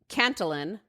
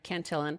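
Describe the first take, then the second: First: It is said with an Irish accent. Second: It is said with an American accent.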